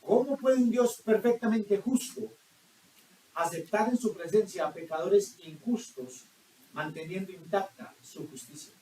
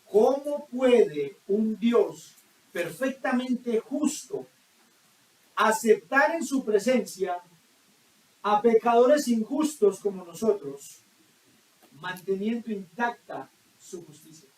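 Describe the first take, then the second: First: It is said at normal speed. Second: It is said more slowly.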